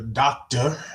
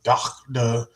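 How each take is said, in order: First: The word is said in an ordinary voice. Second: The word is said deep from the throat.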